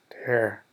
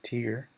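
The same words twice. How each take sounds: First: It sounds like the word meaning to rip. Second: It sounds like the word for a teardrop. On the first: The speaker calls it right. "Lo que yo quería decir es tear" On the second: The speaker calls it wrong. "Lo pronunciaba así"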